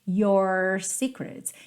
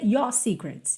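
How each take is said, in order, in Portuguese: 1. O R no final de 'your' é enrolado. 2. A vogal em 'your' é curta, sem R. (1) "com um sotaque mais americano... o R enrola" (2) "Mas não pode ser your secrets"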